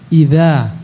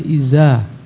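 First: The first consonant is a soft 'th'-like sound. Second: The first consonant is a plain 'z' sound. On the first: The speaker calls it right. "yang sahih" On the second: The speaker calls it wrong. "orang Mesir mengucapkan kata-kata za dengan za"

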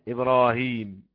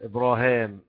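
First: The last vowel is a long 'ee' sound. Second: The last vowel is a long 'aa' sound. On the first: "مرسوم فيها نبرة تعني الياء إبراهيم" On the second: "قراءة عدم النبرة الألف إبراهام"

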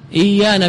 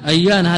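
First: The word begins with an 'i' vowel. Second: The word begins with an 'a' vowel. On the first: It is the form of one tribe's dialect. The speaker calls it wrong. "إيانا بالكسر" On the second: It is the more eloquent form. The speaker calls it right. "أيانا هذه بفتح الهمزة"

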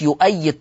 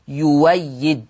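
First: The middle consonant is a glottal stop. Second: The middle consonant is a w sound.

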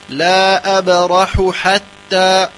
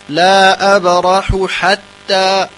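No difference in how they are said.

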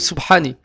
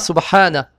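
First: The word ends in an i vowel. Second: The word ends in an a vowel. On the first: The speaker calls it wrong. "ou Subhani, avec la kasra ni avec la dhamma" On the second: The speaker calls it right. "On dira Subhana"

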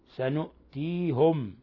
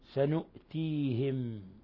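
First: The h is followed by a u vowel. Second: The h is followed by an i vowel. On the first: "بالنون الفوقية وضم الهاء" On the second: "بالنون الفوقية وكسر الهاء"

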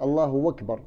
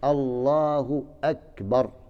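First: Akbar begins with a w sound. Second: Akbar begins with a glottal stop. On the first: The speaker calls it wrong. "غير لنا الحمزة بالواو" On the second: The speaker calls it right. "هذا هو الحق"

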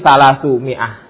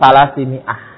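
First: The first word ends in the vowel u. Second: The first word ends in the vowel i. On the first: The number is the subject of the sentence. "sebagai mubtada berarti salasu mi'ah" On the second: The number follows a preposition. "sebagai isim majrur salasi mi'ah"

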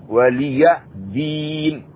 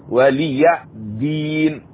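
Both takes have the same delivery.

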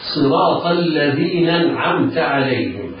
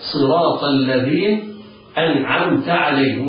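First: The glottal stop before 'anamta' is dropped. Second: The glottal stop before 'anamta' is clearly kept. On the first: The speaker calls it wrong. "فيسقط الهمزة، يقرأ خطأ هكذا" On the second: The speaker calls it right. "والصواب أن يثبت الهمزة بدءا ووصلا هكذا"

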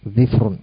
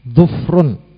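First: The stem has i, with no vowel after f. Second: The stem has u, with no vowel after f. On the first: "mengkasrah huruf dhad dan mensukun huruf fa menjadi dhifrun" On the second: "mendhamah huruf dhad dan mensukun huruf fa"

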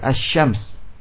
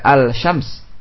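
First: The L disappears into a doubled sh sound. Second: The L is pronounced before the sh sound. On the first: The speaker calls it right. "tapi asy-syams" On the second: The speaker calls it wrong. "tidak al-syams"

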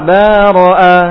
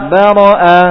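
Both takes have the same delivery.

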